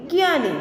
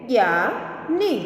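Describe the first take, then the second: First: Said in the usual way. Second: Slow reading. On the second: Shown as a demonstration. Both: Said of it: "जैसे कि".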